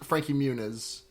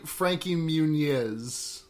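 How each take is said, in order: First: The n in Muniz is a plain n. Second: The n in Muniz has a ny sound. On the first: This is the usual American version of the name. "instead of" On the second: This is the name as his family says it. "a tilde over the N in their name. So his name should be"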